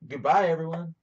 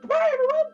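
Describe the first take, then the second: First: It is said in a lower pitch. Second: It is said in a very high pitch.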